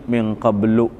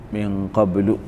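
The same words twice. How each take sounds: The two takes are said the same way.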